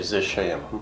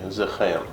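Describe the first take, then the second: First: The middle consonant is an S-like sound. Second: The middle consonant is a K-like sound. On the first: This is how it is said in Kandahar or Quetta. "in like Kandahar or Quetta... they would say... use the S. They wouldn't use K" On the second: This is how it is said in Kabul. "in Kabul they would say"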